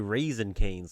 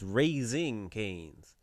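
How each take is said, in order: First: The first word sounds like the dried fruit. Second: The first word sounds like the verb raising. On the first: The name refers to a dried grape. The speaker calls it wrong. "Some of y'all say it wrong. Y'all say raisin canes, like the dried up grape" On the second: The name refers to raising something up. The speaker calls it right. "It's not raisin. It's raising canes. Like Jesus raised from the dead"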